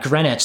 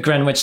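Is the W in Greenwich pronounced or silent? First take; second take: silent; pronounced. First: The W in the middle is silent. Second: The W in the middle is pronounced. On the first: The speaker calls it right. "That sounds better. That sounds right" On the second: The speaker calls it wrong. "did I pronounce the W?"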